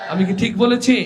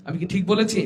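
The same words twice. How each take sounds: First: Rousing call-and-response shout; shouted repeat. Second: Said in the usual way. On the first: Real, not acted.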